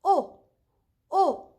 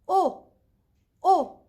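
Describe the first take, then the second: Both takes have the same delivery.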